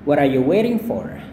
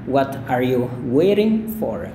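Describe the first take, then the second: First: The phrase is said at a faster pace. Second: The phrase is said at a slower pace.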